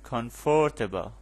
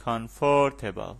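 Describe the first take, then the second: First: Comfortable spoken slowly with the first syllable leaned on; slow teacher model, weight on the start of comfortable; stress on COM. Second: Said in the usual way. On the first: Shown as a demonstration. (تاکید روی هجای اول comfortable) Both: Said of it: "underline the stress syllable".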